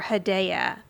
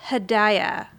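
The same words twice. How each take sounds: First: "Hedaya" with middle syllable like "day"; unsure second try at "Hedaya", stressed on DAY; alternative pronunciation guess. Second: "Hedaya" with middle syllable like "die"; tentative, slow "Hedaya", rhyming with papaya; first pronunciation guess. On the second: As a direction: say "Hedaya" as huh-DIE-uh, slowly. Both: Shown as a demonstration. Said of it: "I don't know that I'm pronouncing that correctly".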